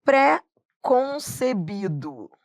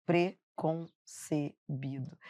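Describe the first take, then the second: First: Pré-concebido with the pré stressed and open, drawn out slowly; wrong stressed pré. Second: Preconcebido said slowly and softly, pre weak and unstressed. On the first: Teacher showing students a wrong stressed pré. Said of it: "É pré-concebido?". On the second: Teacher showing students the correct weak pre. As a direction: let the pre in preconcebido fall weak and soft. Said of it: "É tudo fraco". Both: Shown as a demonstration.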